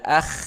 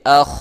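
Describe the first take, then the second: First: The kho sound is light and thin. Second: The kho sound is heavy and thick. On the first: The speaker calls it wrong. "jadi tidak akh" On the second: The speaker calls it right. "tapi akh, akh, ya, tebal"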